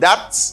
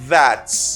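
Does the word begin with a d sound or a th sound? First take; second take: d sound; th sound. First: The first sound is a d-like stop. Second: The first sound is a soft th. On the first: The speaker calls it wrong. "gen moun kap di that" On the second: The speaker calls it right. "But it's that"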